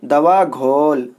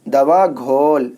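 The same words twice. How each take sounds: No difference in how they are said.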